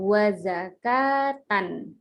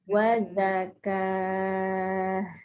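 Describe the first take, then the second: First: The word ends with a full tan syllable. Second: The word ends with a soft h sound. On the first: The reading continues without stopping here. "Kalau dibaca biasa ya tanpa ada wakof" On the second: The reader stops at this word. "maka ta marbutohnya dibaca h menjadi wazakah"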